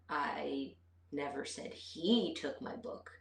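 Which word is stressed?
he. The stress is on the word he. Someone other than him took it. "but maybe she took it"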